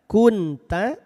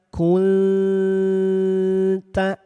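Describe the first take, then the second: First: The n is pronounced clearly and briefly. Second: The n is hidden, nasalized and held longer. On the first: The speaker calls it wrong. "Asalnya kunta" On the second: The speaker calls it right. "jadi samar dan ditahan dua harokat"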